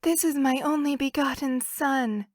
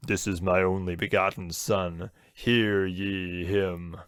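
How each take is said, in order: First: A hint of a woman's voice; man doing a woman's voice. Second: Slow, booming God voice. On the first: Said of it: "That was your woman voice?". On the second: Retold or imitated. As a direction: intone it like God from heaven.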